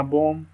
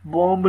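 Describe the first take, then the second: First: बॉम्ब said as "bom", ending on m; बॉम्ब with no b after the m; silent final b. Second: बॉम्ब with the last b pronounced; sounded final b. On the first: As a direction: drop the last b of बॉम्ब. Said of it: "बी नहीं पढ़ेंगे". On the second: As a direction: say बॉम्ब as "bom-b", ending on b. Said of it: "बॉम्ब नहीं पढ़ना". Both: Shown as a demonstration.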